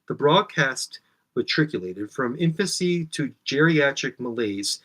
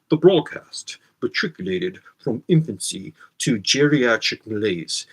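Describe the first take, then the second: First: It is read in the speaker's ordinary voice. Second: It is read in a put-on academic voice.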